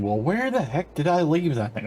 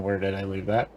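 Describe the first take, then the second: First: High, puzzled mock exasperation; exasperated wondering. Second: Said in the usual way. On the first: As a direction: act baffled about where it went. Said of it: "three episodes thinking". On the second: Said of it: "Or I sat there thinking".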